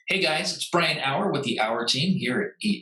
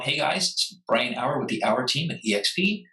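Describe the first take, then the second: First: It is said in a put-on announcer voice. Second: It is said in his natural talking voice.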